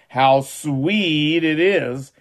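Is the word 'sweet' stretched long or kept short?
long. The word sweet is emphasized and stretched long. "I emphasize sweet and stretch it out"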